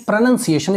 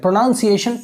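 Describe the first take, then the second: First: "pronunciation" said as pro-NUN-ciation, with a short "nun"; correct pronunciation. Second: "Pronunciation" said the wrong way, as pro-NOUN-ciation with an "ow" sound. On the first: Teacher shows students the right way: "pronunciation" as pro-NUN-ciation. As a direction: say "pronunciation" carefully, with "nun" and no "noun". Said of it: "pronunciation is correct".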